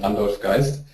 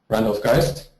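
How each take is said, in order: First: The name is said with German pronunciation. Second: The name is said with English pronunciation.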